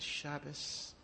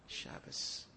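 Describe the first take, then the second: First: Soft, choked "Shabbos"; quiet tearful word. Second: Whispered. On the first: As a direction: say "Shabbos" quietly, near tears. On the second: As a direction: whisper "Shabbos" breathless and toneless. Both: Acted. Sobbing Chafetz Chaim says two words.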